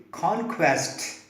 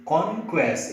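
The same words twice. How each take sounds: First: Conquest with an aspirated k; right way conquest. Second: Conquest with an unaspirated k; wrong way conquest. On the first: Teacher modelling the correct conquest, k aspirated. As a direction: conquest with a puff of air on the k. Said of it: "you have to say conquest". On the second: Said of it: "you cannot say conquest". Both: Shown as a demonstration.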